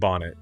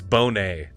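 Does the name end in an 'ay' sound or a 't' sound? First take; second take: t sound; ay sound. First: It sounds like the word bonnet, ending in t. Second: It ends in an ay sound, not t. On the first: The speaker calls it wrong. "I was saying bonnet" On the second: The speaker calls it right. "This is how you pronounce it"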